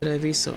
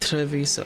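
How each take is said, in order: First: The consonants are soft, with a different r. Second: The consonants are hard, with an English r. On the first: The speaker calls it right. "It's Treviso" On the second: The speaker calls it wrong. "not Treviso"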